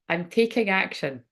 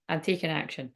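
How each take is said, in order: First: It is said in an exaggerated put-on voice. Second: It is said in a plain, serious voice. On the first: "I think I'll have to do it in the voice" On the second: "I'll try and do it in a serious way"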